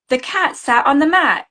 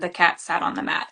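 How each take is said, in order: First: It is said with a lively, marked tone. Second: It is said flatly, without marked tone. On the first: "that same like voice and tone" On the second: "instead of just saying"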